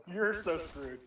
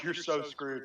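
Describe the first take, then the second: First: "You're" pitched up, thrown back at her; retort, stress on YOU'RE. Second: Said in the usual way. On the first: Retold or imitated. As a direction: lean on "You're" to turn the threat around. Retort turns her words back.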